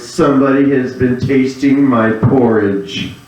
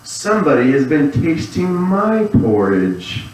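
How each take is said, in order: First: It is said in a great big voice. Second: It is said in a middle-sized voice.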